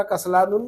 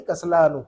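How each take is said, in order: First: कसलानुन with a final "-un"; with tanween ending. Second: कसलानु stopping on a short "u"; without tanween. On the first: Teacher contrasting the reading to avoid, कसलानुन with tanween. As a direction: sound the n that closes कसलानुन. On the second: Teacher giving the reading to use, कसलानु without tanween. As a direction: end कसलानु on the vowel, no n. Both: Shown as a demonstration. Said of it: "इसी तरह कसलानुन नहीं".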